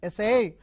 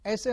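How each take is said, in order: First: The stress is on the second syllable. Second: The stress is on the first syllable. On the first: To try to do something. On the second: A piece of writing.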